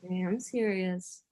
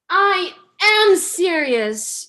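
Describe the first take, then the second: First: It is said in a serious tone. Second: It is said in a playful tone.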